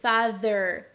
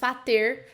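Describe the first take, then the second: First: The middle consonant is a th sound. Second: The middle consonant is a t sound. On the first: The speaker calls it right. "com essa língua entre os dentes" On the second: The speaker calls it wrong. "muito menos fater com som de T"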